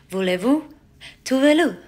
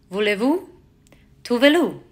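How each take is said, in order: No difference in how they are said.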